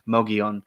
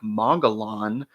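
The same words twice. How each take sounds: First: The double L is said as a Y sound. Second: The double L is said as an L sound. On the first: The speaker calls it right. "it's probably pronounced like a Y" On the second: The speaker calls it wrong. "I know it looks like Mogollon"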